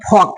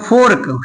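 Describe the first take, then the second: First: The R sound is silent before the k. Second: The R sound is pronounced before the k. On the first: The speaker calls it right. "लेकिन होता फॉक" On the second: The speaker calls it wrong. "सब पढ़ता है फोर्क"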